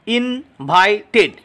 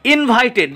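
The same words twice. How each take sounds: First: "ইনভাইটেড" slowly split into three beats; syllable by syllable. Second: Said in the usual way. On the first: Shown as a demonstration. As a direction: break "ইনভাইটেড" up, pausing between syllables. ("ইনভাইটেড" ধীরে syllable ভেঙে) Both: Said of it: "আলাদা আলাদাভাবে syllable".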